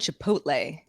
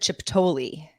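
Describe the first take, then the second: First: The middle sounds are in their standard order. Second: The middle sounds are swapped around. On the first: The speaker calls it right. "I used to have a hard time saying Chipotle" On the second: The speaker calls it wrong. "I said Chiptoli"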